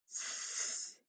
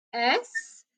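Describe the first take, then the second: First: S as a long voiceless sss hiss; just hiss S, no voice; S said as the sound sss, not the letter name. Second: Said in the usual way. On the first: Shown as a demonstration. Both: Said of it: "the floss rule says that if you hear one of these sounds".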